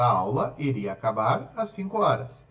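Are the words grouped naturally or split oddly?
naturally. The words are grouped in natural phrases. The speaker calls it right.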